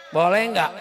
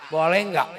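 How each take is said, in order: Both takes have the same delivery.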